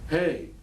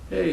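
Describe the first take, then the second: First: It is said flat, hesitant and apologetic. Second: It is said in a deflated, defeated tone. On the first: The speaker expects not to be wanted. "your lack of voice inflection" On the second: The speaker has been discouraged by rejection. "Now it's a defeated type of voice inflection"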